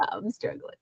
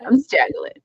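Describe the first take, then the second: First: Soft breathy whisper. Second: Said in the usual way. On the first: Real, not acted. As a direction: whisper it to yourself. Tired streamer repeats in whisper.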